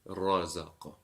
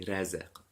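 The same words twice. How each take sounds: First: The R is heavy, with a rounded mouth. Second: The R is thin, with a flat mouth. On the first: The speaker calls it right. "it will be" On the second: The speaker calls it wrong. "It won't be"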